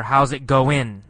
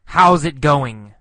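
First: "goin'" ending in a plain n sound; casual "goin'" with n in place of ng; dropped g. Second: "going" with the final ng fully sounded; "going" in its full, careful form; full g ending. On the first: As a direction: drop the g at the end of "goin'". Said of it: "sometimes no g sound". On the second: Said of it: "sometimes g, going". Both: Shown as a demonstration.

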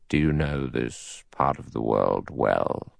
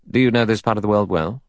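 First: Low, slow, soft judge voice; deep and deliberate, weighing the question; cautious judge. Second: Said in the usual way. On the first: A narrator's reading. Judge questions fellow passenger, slow and cautious.

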